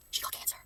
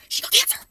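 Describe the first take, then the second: First: Just breathe it, stunned; whisper. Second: Loud, forceful stage whisper; shocked stage whisper. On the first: Repeats the news quietly. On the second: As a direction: hiss it out in shock. Shocked reaction to video plot. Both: Real, not acted.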